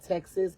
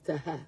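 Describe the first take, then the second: First: It is said with an English pronunciation. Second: It is said with a Spanish pronunciation.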